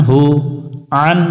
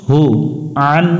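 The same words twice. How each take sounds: Both takes have the same delivery.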